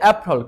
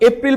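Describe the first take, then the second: First: The second syllable has a weak, reduced vowel. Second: The second syllable has a full 'ee' vowel. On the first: The speaker calls it right. "এটা শুদ্ধ উচ্চারণ হচ্ছে অ্যাপ্রল" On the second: The speaker calls it wrong. "আপনারা এপ্রিল বলেন না"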